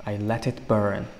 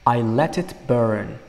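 First: Said in the usual way. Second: Slow, deliberate reading of the lyric; slow model line. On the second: Shown as a demonstration. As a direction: let each word land slowly. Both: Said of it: "Demak, men uni, uh, yoqib".

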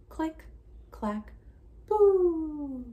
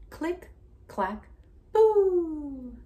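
The two takes are said the same way.

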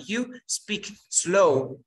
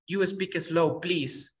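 First: Very slow, each word separated; slow and clear. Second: Said in the usual way. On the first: Shown as a demonstration. Teacher models asking for slow speech, very slow. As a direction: speak it out at a crawl for a learner.

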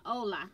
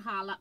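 First: "hola" starting straight on the O; silent H. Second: "holla" with an audible H; sounded H. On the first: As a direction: say "hola" as OH-la, dropping the H. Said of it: "not holla". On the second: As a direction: say "holla" starting on a breathed H sound. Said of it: "I pronounced the H". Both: Shown as a demonstration.

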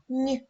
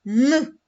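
First: Lone soft Н, palatalized as нь. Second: Lone hard Н, pushed out loud. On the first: Teacher comparing for pupils, soft Н as нь. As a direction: say Н as нь, tongue raised to the palate. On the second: Teacher comparing for pupils, loud hard Н first. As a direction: say Н hard and loud, not palatalized. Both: Shown as a demonstration. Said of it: "Давайте порівняємо".

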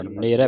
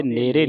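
First: ਨੇਰੇ with an open final "ai"; open "ai" ending. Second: ਨੇਰੇ with a close final "e"; wrong "e" ending. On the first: Teacher correcting students, ਨੇਰੇ ending in open "ai". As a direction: open the last vowel of ਨੇਰੇ. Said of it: "ਨੇਰੇ ਪੜ੍ਹਨਾ". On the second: Teacher warning students of a misreading, ਨੇਰੇ with final "e". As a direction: end ਨੇਰੇ on "ay". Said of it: "ਨੇਰੇ ਨਹੀਂ ਪੜ੍ਹਨਾ". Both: Shown as a demonstration.

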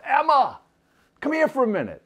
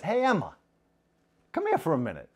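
First: High, loud call down the hall. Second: Father gently calls his daughter to him; gentle father. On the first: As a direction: yell her name sweetly from the room. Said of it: "he yells out". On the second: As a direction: invite her over kindly. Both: Acted.

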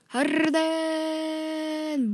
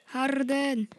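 First: Hyped call. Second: Said in the usual way. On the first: Real, not acted. Hyped drawn-out player call.

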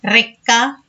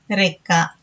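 First: రెక్క with a strongly rolled r, rising ending; old hard r. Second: రెక్క with a light r, falling ending; present-day soft r. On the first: Teacher showing the old letter, రెక్క with hard rolled r. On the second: Teacher showing today's letter, రెక్క with light r. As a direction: say రెక్క with a short tapped r. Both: Shown as a demonstration. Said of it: "ఇలా వీటిని పలుకుతున్నాము".

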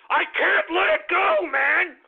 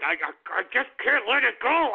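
First: Can't let it go. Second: Said in the usual way. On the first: Acted. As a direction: let the anger boil over. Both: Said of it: "I'm just so goddamn angry".

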